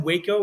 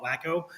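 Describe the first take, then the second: First: "Waco" with a long A, WAY-ko; standard Waco. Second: "Waco" said as WACK-o; short A in "Waco", like wacko; local nickname. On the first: Reader naming the Texas town, "Waco" as WAY-ko. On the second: Reader sharing what locals call it, "Waco" as WACK-o. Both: Shown as a demonstration. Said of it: "or we call it Waco".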